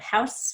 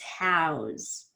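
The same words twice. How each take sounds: First: The word ends with a hissing S sound. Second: The word ends with a buzzing Z sound. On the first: It is used as a noun. "as a noun, it ends in an S sound" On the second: It is used as a verb. "as a verb, it ends in a Z sound"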